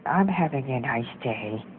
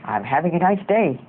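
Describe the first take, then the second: First: Low, slow, soft sad delivery. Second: Mildly angry demo voice; a half-hearted attempt at sounding angry. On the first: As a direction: say it downcast, dragging and quieter. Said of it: "say it in a sad tone of voice". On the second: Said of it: "say it in an angry voice". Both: Shown as a demonstration.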